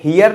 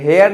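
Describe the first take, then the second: First: It begins with h and sounds like hear. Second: It begins with h and sounds like hair. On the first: "हियर नहीं पढ़ते" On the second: "हेयर नहीं पढ़ते"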